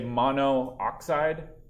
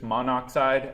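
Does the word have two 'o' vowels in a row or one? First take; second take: two; one. First: Two o vowels are said back to back. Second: A single o vowel links the two parts. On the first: The speaker calls it wrong. "we didn't say monooxide" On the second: The speaker calls it right. "It's just monoxide. it just flows better"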